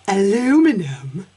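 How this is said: It is said with the American pronunciation. The speaker calls it wrong.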